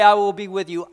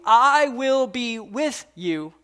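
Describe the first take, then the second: First: Louder, declared promise; a touch louder, steady vow; firm promise. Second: Slow, drawn-out reassurance; slow and gentle, the repeat softened; slow tender promise. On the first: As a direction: state it firmly to his son. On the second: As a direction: linger on each word to comfort. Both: Acted.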